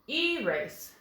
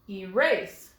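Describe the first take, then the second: First: The stress is on the first syllable. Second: The stress is on the second syllable. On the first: The speaker calls it wrong. "That makes this an open accented vowel. ... that doesn't sound quite right" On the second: The speaker calls it right. "Let's try moving the accent to the second syllable"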